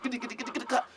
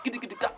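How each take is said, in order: First: Longer galloping clip-clop. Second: Clip-clop trotting sound, mouthed; hoofbeat imitation. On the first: Retold or imitated. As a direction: let the hooves run on longer. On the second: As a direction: tap out hooves with the tongue.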